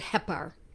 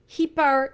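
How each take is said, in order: First: The first vowel is a short E sound. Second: The first vowel is a long E sound. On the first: "Some people pronounce it Hepar" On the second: "I make it a long E"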